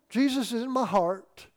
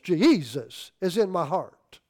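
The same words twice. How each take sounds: First: Jesus is said with two syllables. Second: Jesus is stretched into three syllables. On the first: The speaker calls it wrong. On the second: The speaker calls it right.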